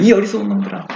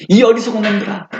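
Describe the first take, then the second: First: Said in the usual way. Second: Harsh rebuke. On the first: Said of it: "이런 말이 나오거든요". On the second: Retold or imitated. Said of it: "어조가 굉장히 강해요".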